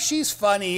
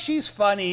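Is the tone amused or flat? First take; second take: amused; amused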